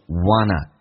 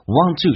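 First: The words are reduced and blended into one. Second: Both words are said fully and separately.

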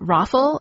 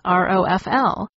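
First: It is said as a single word. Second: Each letter is said separately. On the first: "I always pronounce it ROFL as if it were an acronym" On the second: "pronounce all the letters"

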